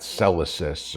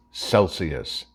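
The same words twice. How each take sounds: First: Celsius garbled as SEL-uh-sis; slowly mangle Celsius, losing the ee sound; mangled pronunciation. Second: Celsius said slowly as SEL-see-us; correct pronunciation. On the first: Retold or imitated. Host mimicking the congresswoman's slip, mangling Celsius as SEL-uh-sis. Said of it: "or however you mangled the word". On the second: Shown as a demonstration. Host correcting the congresswoman's word, pronouncing Celsius carefully as SEL-see-us. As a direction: say Celsius properly, in clear syllables. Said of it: "it's pronounced Celsius".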